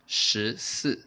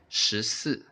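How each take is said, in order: Both takes have the same delivery.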